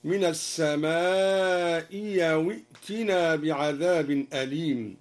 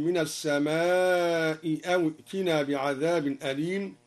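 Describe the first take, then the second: First: "السماء أو" glides with a y, as-sama'i yaw; second hamza becomes ya. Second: Said in the usual way. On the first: Shown as a demonstration. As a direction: replace the hamza of "أو" with y. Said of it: "قرأ الدوري بإبدال الهمزة الثانية ياء". (إبدال همزة "أو" ياءً) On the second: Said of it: "بإبدال الهمزة الثانية ياء".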